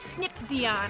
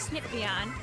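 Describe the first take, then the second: First: The P sound is said strongly and clearly. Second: The P sound is said softly and weakly. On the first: "I don't say like snip Vion" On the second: "my P's are very soft when I speak"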